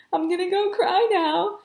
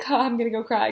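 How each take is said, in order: First: High, loud and drawn out; high-pitched flustered announcement; freaking out. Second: Said in the usual way. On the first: Retold or imitated. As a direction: re-enact a slow, overwrought squeak. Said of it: "I was talking like this". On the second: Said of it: "that was a joke".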